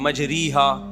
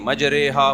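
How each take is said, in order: First: The vowel after 'majr' sounds like 'i'. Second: The vowel after 'majr' sounds like 'e'. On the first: This is the reading the normal grammar rule would give. "Normal तो पढ़ना चाहिए कायदे के तहत" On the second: This is the reading handed down from the Prophet. "अब जैसे हम पढ़ते हैं बिस्मिल्लाहि मजरेहा"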